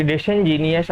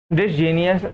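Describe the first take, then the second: First: डिसइनजीनियस with the "in" put back, dis-in-JEE-nee-us; corrected pronunciation. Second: डिसजीनियस said quickly without the middle syllable, dis-JEE-nee-us; a hurried wrong reading, डिसजीनियस with the "in" dropped; slip of the tongue. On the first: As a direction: fix the word, saying डिसइनजीनियस carefully in full. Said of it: "sorry". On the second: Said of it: "sorry, डिसइनजीनियस". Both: Shown as a demonstration.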